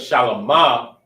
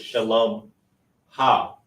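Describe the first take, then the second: First: The final syllable is said without an h sound. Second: The final syllable is said with an h sound. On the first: It simply means peaceful or servant of peace. "instead of shalomah" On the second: It means her peace. "you have to pronounce the ha"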